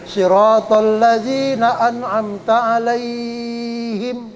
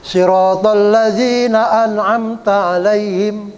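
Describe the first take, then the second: First: Slow chant with the "lai" of "alaihim" held very long; level recitation tone, "ai" in "alaihim" greatly prolonged; drawn-out vowel. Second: Slow chant with "alaihim" left unstretched; measured Quran recitation, no long hold in "alaihim"; short vowel in recitation. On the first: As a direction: recite "Siratal ladzina an'amta alaihim", wrongly stretching "alaihim". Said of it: "Ya, nggak boleh". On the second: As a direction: recite "Siratal ladzina an'amta alaihim", keeping "lai" short. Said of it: "Nggak boleh". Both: Shown as a demonstration.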